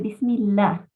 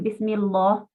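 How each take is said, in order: First: The l in Allah is light and thin. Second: The l in Allah is heavy and full. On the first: The speaker calls it right. "con suavidad" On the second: The speaker calls it wrong. "No hay que decir Bismillah, porque eso está mal"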